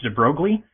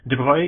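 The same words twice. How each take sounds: First: The name is said in an English-style way. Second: The name is said in a French-style way. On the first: The speaker calls it wrong. "I always thought his name was pronounced de Broglie" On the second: The speaker calls it right. "he's French ... my best guess at how it would probably be pronounced"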